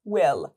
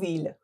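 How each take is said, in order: First: It begins with a w sound. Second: It begins with a v sound. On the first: The speaker calls it right. "دابلیو هست و، اینم ایه کشیده نیست، شورت آیه" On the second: The speaker calls it wrong. "اینو نگو ویل"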